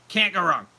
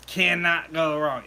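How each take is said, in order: First: Said in the usual way. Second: "Cannot" spelled out slowly, each word weighted; emphatic cannot. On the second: Shown as a demonstration. Insisting to viewers blueberry "Cannot go wrong", slow emphasis. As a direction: lean on "Cannot" and slow right down.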